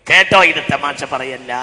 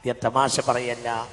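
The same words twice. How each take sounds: First: Projected, intoned sermon warning; loud preaching call. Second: Said in the usual way. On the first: Shown as a demonstration. Preacher warning listeners this is no joke, loud intoned call. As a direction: call it out with a stretched ending.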